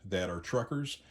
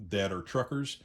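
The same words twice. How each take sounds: The two takes are said the same way.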